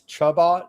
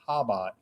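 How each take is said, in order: First: The word begins with a ch sound. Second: The word begins with an h sound. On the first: The speaker calls it wrong. "if you just read it like normal, it says Chabot" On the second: The speaker calls it right. "the C is silent. Apparently, it's Habat"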